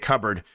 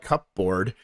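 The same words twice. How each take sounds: First: The p is silent and the ending is reduced. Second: The p is sounded and 'board' is full. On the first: This is how others expect it to be said. "they want me to say cupboard" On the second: This is how the word is written. "it is just spelled cupboard"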